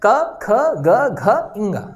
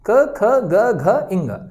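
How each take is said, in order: First: क, ख, ग, घ, इंगा drawn out very slowly, each sound held; teacher pronouncing the letters slowly; slow nasal sound demo. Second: क, ख, ग, घ, इंगा said at normal pace, each letter clear; teacher repeats the letters quickly; sound demo. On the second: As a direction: repeat क ख ग घ इंगा crisply for the class. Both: Shown as a demonstration. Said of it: "आप उच्चारण करके देखें".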